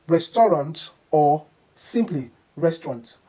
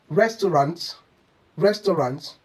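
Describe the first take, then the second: First: "restaurant" with a reduced ending, then shortened to res-tront; correct restaurant. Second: "restaurant" in three syllables, res-tuh-rant; overemphasised restaurant. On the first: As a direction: say "restaurant", then squeeze it into two syllables. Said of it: "the correct pronunciation should be". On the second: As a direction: sound every syllable of "restaurant", ending in a full "rant". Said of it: "Overemphasis on each syllable is a common mistake". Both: Shown as a demonstration.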